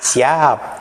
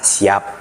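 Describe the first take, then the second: First: The word is said in a playful slang form. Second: The word is said in its standard form. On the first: "anak-anak sekarang kata siap kan dibacanya ah" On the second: "kata siap"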